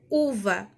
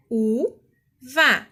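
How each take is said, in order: First: Said in the usual way. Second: "u-va" as two separate beats, pause between; split into syllables. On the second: Shown as a demonstration. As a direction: sound out "u-va" syllable by syllable. Teacher demonstrates splitting into syllables.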